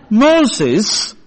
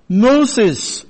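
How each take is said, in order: First: Rising, a touch amused; mild disbelieving laugh. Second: A lightly voiced parrot, flat falling answer; parrot's reply. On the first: Burglar mocking the parrot's name, mildly amused rise. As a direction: echo the name back as a mild scoff, not a real laugh. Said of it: "the burglar laughed". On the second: Parrot answering the burglar, a light falling reply. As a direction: state the name plainly as the bird, barely acted. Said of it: "replied the bird". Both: A narrator's reading.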